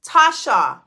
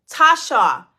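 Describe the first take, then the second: No difference in how they are said.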